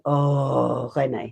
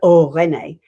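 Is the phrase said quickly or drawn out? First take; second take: drawn out; quickly. First: It is drawn out and elongated. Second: It is said quickly and short.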